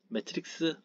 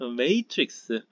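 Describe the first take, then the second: First: It is said with a Korean-style 'mae-teu-rik-seu' pronunciation. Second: It is said with an English-style 'may-trix' pronunciation. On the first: "매트릭스 뭐 이렇게 하죠 뭐" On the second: "발음이 영어 발음이 ... 이렇습니다"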